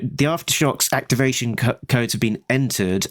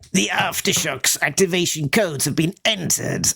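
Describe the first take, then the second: First: It is said in the speaker's normal voice. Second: It is said in a put-on villain voice.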